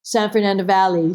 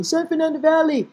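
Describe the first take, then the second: First: Said in the usual way. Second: "San Fernando Valley" in a high, held pitch; playful put-on voice. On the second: Repeats place name in put-on voice.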